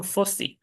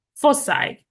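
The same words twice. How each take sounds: First: Foci ending in a Spanish i, fo-si; foci said fo-see. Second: Foci with a final English I sound, fo-sai; foci said fo-sigh. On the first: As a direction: say foci with a short ee ending, softer. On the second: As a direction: say foci ending in sigh, higher. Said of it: "o foci". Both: Shown as a demonstration.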